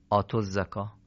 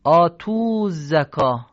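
First: آتو said quickly with short o, softer; short vowel reading. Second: آتو drawn long, loud and slow; written long vowel. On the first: Teacher gives the correct short آتو. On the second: Teacher shows the wrong long آتو. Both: Shown as a demonstration. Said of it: "یعنی اشباع نمیشه اینجا".

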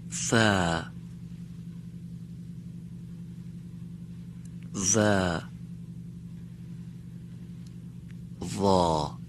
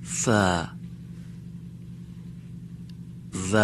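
First: ف, ز and وا each stretched on a long a; letters with a drawn-out fatha. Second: ف and ز stretched on a long a; letters again with a long a; long fatha repeated. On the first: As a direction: draw out the a of ف ز وا. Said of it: "با فتحه کشیده بگم". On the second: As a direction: repeat ف and ز drawn out. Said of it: "یک بار دیگه". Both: Shown as a demonstration.

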